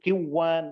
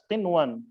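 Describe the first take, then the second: First: The n merges into the w and vanishes. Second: The n is pronounced clearly before the w. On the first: The speaker calls it wrong. "kita tidak membaca kiwan" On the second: The speaker calls it right. "dibaca dengan jelas qinwan"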